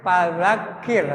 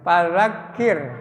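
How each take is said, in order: No difference in how they are said.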